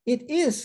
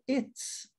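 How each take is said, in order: First: Two full words are said separately. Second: The words merge into one quick syllable.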